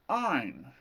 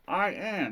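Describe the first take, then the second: First: The words are merged into one contraction. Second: Both words are said in full. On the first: The speaker calls it right. "it's I'm" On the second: The speaker calls it wrong. "instead of I am"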